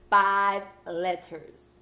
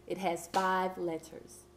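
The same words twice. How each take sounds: First: "five letters." very slow and louder, each word hit; stress on five letters. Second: Said in the usual way. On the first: Shown as a demonstration. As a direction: drag out "five letters." so it lands. Teacher stressing a clue.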